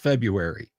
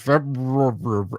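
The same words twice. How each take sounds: First: The r after the b is not pronounced. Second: The r after the b is clearly pronounced. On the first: This is how people commonly say it. The speaker calls it right. "Everyone says February" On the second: This is how it is spelled but nobody says it. The speaker calls it wrong. "Nobody pronounces it like it is spelled"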